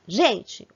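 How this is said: It is said as a call for attention. The speaker is asking for attention. "ou estou pedindo atenção"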